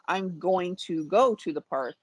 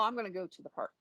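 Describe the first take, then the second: First: Every word is said separately and fully. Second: The words are mashed together and shortened. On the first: "instead of saying" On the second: "I would say"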